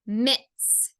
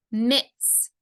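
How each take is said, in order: Both takes have the same delivery.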